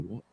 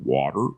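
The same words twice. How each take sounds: First: It is said in an Australian accent. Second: It is said in an American accent.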